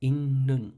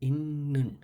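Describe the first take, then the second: First: The first syllable ends with an n sound. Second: The same.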